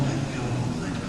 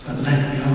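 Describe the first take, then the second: First: "let go, let go" dropped to a soft whisper. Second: Said in the usual way. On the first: Shown as a demonstration. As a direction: breathe "let go" out like a release. Repeats let go, fading.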